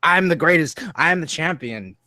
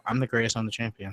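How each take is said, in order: First: Said in the usual way. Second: "I'm the greatest, I'm the champion" mumbled low and much softer, no punch; flat, lifeless delivery. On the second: Shown as a demonstration. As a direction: say it like a softy with no bass. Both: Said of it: "without any inflection or funny voice".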